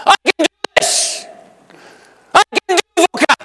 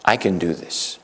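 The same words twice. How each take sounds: First: High, loud climax of "I can do this"; rising shout. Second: Soft declaration. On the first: Preacher leading congregation to a loud high "I can do this". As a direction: build to a triumphant cry. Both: Shown as a demonstration. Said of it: "Can you say that with me?".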